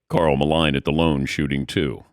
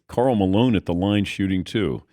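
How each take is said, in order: First: The vowels in the name and 'line' sound swapped. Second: The name and 'line' have their usual vowels. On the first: The speaker calls it wrong. "he said it in a way it's like" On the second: The speaker calls it right. "it's Carl Malone at the line shooting two"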